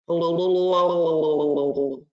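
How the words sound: It is said in a bubbly underwater voice.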